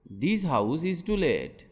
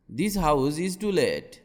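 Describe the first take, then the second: No difference in how they are said.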